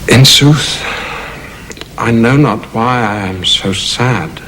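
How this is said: It is spoken thoughtfully, as if explaining himself.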